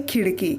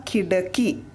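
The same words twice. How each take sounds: First: खिड़की with a flapped ड़ in the middle; correct pronunciation. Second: खिड़की with a hard stop ड instead of ड़; wrong pronunciation. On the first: Teacher to students, modelling the correct flap. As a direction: say खिड़की with the tongue flipped on ड़. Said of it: "शुद्ध उच्चारण हुआ खिड़की". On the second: Teacher to students, demoing the wrong hard sound. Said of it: "नुक्ता हटा देते हैं तो उच्चारण कैसे हो जाएगा". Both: Shown as a demonstration.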